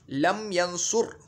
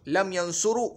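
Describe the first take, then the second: First: "यंसुर" drawn out slowly, closing on r; slow "यंसुर" with a silent final vowel; correct vowelless ending. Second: "यंसुरु" with an -u after the r; "यंसुरु", wrongly keeping the end vowel. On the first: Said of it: "लम यंसुरु नहीं पढ़ेंगे". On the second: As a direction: say "यंसुरु" with the final -u sounded. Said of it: "नहीं पढ़ेंगे". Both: Shown as a demonstration.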